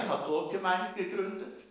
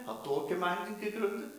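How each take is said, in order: Both takes have the same delivery.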